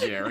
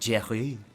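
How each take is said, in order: First: It is said with a plain English accent. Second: It is said with a French accent.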